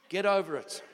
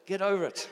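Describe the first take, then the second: First: Emphatic, louder; firm preacher's command. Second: Said with a forced smile; smiling. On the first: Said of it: "And I say that in the nicest way". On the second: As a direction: smile through the firm words. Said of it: "I'll try and smile when I say that". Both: Real, not acted.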